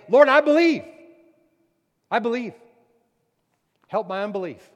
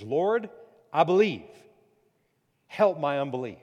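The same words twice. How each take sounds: First: Much louder and higher, screaming it out; desperate scream. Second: Loud pleading cry, a touch of tears. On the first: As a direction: cry out with everything you have. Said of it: "his head screaming out saying". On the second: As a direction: beg the Lord out loud. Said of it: "the father cried out and said with tears". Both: Acted.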